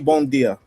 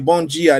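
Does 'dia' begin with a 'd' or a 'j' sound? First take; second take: d; j. First: The word 'dia' starts with a 'd' sound. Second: The word 'dia' starts with a 'j' sound. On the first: The speaker calls it wrong. "they don't say" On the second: The speaker calls it right. "instead of a D, they use a G"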